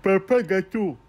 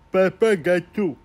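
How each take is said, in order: First: Lightly voiced sugar daddy; doting dad voice. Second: High, slow, drawn-out daddy coo; hammed-up indulgent dad, slowed right down; slower doting dad voice. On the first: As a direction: coo it like an indulgent father. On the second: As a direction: stretch out Papa gâteau like a cooing father. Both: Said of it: "je le voyais comme ça".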